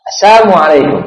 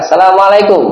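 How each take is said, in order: First: Assalamualaikum twisted to "Assamualaikum", the "la" dropped, higher; a mock greeting Assalamualaikum clipped to "Assamualaikum"; mocking salam. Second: Assalamualaikum said in full, higher, with a clear "Assalamu"; proper salam. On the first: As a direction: sneer it as "Assamu" meaning poison. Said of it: "Racun untuk kaum Muhammad". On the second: Shown as a demonstration. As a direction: greet properly, every syllable of Assalamualaikum. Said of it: "ucapan salam itu kan kalau sesama kaum muslimin".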